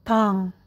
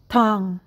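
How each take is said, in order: The two takes are said the same way.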